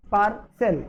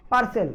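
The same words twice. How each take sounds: First: पार्सल drawn out as par, then sel; split in two syllables. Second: Said in the usual way. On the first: Shown as a demonstration. Teacher showing pupils it has two syllables, पार्सल said in two parts. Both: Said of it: "ये दो syllable है".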